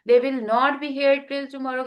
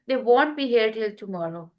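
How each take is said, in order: First: Will not is said as two full words. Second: Will not is shortened into one syllable, won't. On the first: "के बजाय" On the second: "अब विल नॉट, वांट"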